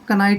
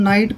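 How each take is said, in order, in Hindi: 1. शब्द k ध्वनि के साथ शुरू होता है। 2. शब्द k ध्वनि के बिना शुरू होता है। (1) "कनाइट नहीं पढ़ेंगे" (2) "इसको हम नाइट पढ़ेंगे"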